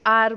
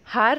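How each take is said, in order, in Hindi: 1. यह शब्द स्वर से शुरू होता है, h मौन है। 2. यह शब्द उच्चारित h से शुरू होता है। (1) "आर बोलते हैं" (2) "हम हार नहीं बोलते हैं"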